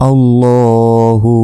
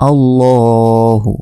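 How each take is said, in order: The two takes are said the same way.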